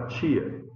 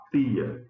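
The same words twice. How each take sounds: First: "tia" with a ch sound, like "chee-a"; t palatalizado. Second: "tia" with a hard t, tongue behind the teeth; t dental. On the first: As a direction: soften the t of "tia" into ch. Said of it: "você fala tia". ("tia" chiado, com som de tch) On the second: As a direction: say "tia" like "tee-a", no ch sound. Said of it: "você não fala tia". ("tia" com t seco, sem chiado) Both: Shown as a demonstration.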